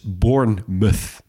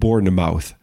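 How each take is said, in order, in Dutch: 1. Het uiteinde is een gereduceerde 'muth'. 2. Het uiteinde is een volledige 'mouth'. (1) "Dus Bournemouth" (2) "niet Bournemouth"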